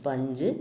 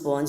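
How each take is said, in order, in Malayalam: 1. സ്വരാക്ഷരം 'uh' പോലെയാണ്. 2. സ്വരാക്ഷരം 'oh' പോലെയാണ്. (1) "സ്പഞ്ചാണ് പറയേണ്ടത്" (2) "നമ്മൾ സ്പോഞ്ച് പറയും"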